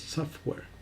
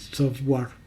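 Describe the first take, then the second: First: The second part sounds like an E. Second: The second part does not sound like E. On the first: The speaker calls it right. "es software, o sea, como una E" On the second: The speaker calls it wrong. "siempre dicen eh"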